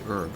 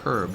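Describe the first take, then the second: First: The word begins with no h sound. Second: The word begins with an audible h sound. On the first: The speaker calls it right. "you say herb" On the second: The speaker calls it wrong. "It's got an H in the name, but you don't say herb"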